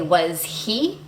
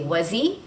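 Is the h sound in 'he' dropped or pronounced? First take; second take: pronounced; dropped. First: The h sound in 'he' is clearly pronounced. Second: The h sound is dropped and the words link. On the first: The speaker calls it wrong. "We don't say was he" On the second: The speaker calls it right. "we actually drop that H and the word before will link to it"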